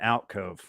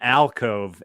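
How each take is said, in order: First: The first syllable sounds like 'out'. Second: The first syllable sounds like 'al'. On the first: The speaker calls it wrong. "not an alcove" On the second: The speaker calls it right. "it's called an alcove"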